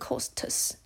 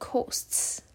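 First: The t and s are said as separate sounds. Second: The t and s blend into one ts sound. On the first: The speaker calls it wrong. "我们不会念costs" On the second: The speaker calls it right. "因为ts 的音只要碰在一起，我们就会念成ts"

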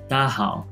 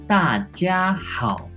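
First: The syllables run together into a shortened form. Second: Each syllable is pronounced clearly and separately. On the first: This is how Taiwanese speakers say it. "台湾の人が喋るときは大好、大好とか、本当につながりやすい" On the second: This is the standard mainland pronunciation. "標準語の発音なんですけど"

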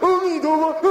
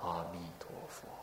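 First: It is said with strained, effortful intensity. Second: It is said lightly and calmly, without tension.

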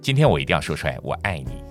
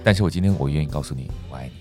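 First: The words are articulated crisply and sharply. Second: The words are articulated softly and gently.

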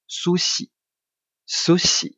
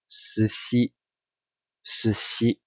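First: The 'su' vowel is strongly rounded. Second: The 'su' vowel is relaxed and unrounded. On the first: The speaker calls it wrong. "可是这样很奇怪，对不对？不太像哦。" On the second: The speaker calls it right. "这样是不是比较像他们在讲话的感觉呢？"

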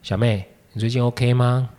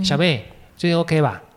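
First: It sounds heavy and serious. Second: It sounds light and casual.

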